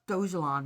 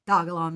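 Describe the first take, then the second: First: The g is soft, like a j. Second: The g is hard, as in dog. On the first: The speaker calls it wrong. "It is not Dojalon Mars" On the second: The speaker calls it right. "It is Dogalon Mars. ... dog. Uh, Lon"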